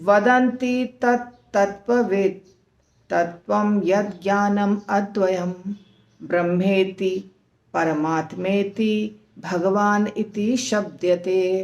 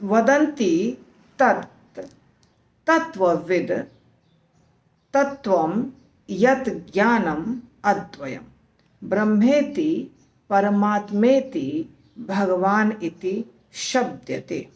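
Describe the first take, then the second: First: The verse is recited at a faster pace. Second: The verse is recited at a slower pace.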